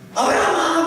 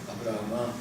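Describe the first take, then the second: First: The name is called loudly and urgently. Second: The name is called softly and gently.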